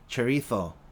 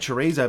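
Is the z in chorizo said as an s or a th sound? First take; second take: th sound; s sound. First: The z is said as a th sound. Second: The z is said as an s sound. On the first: The speaker calls it right. "but it's actually chorizo" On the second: The speaker calls it wrong. "people say chorizo"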